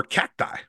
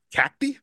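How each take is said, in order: First: "Cacti" ending in an EYE sound. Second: "Cacti" ending in an EE sound. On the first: Host offering the other option, "Cacti" said CACK-tie. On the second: Host unsure of the ballpark's new name, "Cacti" said CACK-tee. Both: Shown as a demonstration. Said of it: "is it Cacti or Cacti".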